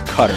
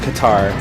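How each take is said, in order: First: It is said like the word 'cutter'. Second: It is said like 'katar', as in 'katarna'. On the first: This is how the radio network pronounces it. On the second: This is the familiar everyday pronunciation.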